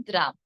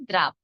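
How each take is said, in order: No difference in how they are said.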